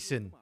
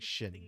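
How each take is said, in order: First: It begins with a plain S sound. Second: It begins with an SH sound. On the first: "the X I N sounds like S I N" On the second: "he meant to pronounce it like Shin"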